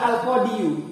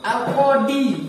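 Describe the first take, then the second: First: The word ends with an added 'yu' syllable. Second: The word ends in a plain long 'ee' sound. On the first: The speaker calls it wrong. "Kenapa kok enggak" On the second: The speaker calls it right. "Gimana bacaannya ini?"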